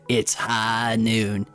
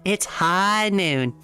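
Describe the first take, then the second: First: It is said in a deep voice. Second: It is said lighter, rising at the end. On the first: It sounds masculine. The speaker calls it wrong. "I almost did it in the deep voice" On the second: It sounds more feminine. The speaker calls it right. "You gotta do it with the upwards inflection"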